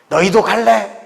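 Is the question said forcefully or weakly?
forcefully. It is said with force and energy.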